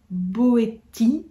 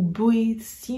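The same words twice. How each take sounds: First: Boétie ending in a hard "tee"; hard-t pronunciation. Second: Boétie ending in "see"; soft-s pronunciation. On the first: Vlogger unsure of the author's name, hard-t pronunciation of Boétie. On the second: Vlogger offering the other reading of the name, soft-s pronunciation of Boétie. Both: Shown as a demonstration. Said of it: "je ne sais pas comment on prononce".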